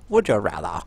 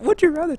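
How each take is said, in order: First: Mock-posh accent, lower pitch; low, hammed-up classy accent. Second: Said in the usual way. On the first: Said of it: "let's just classy it up a bit".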